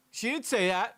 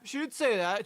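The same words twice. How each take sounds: First: Higher, louder, punching "didn't"; angry stress on didn't. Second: Higher, louder, punching "say"; now hammer "say", still indignant; angry stress on say. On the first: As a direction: throw the weight onto "didn't", indignant. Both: Real, not acted. Furious at the cop's claim.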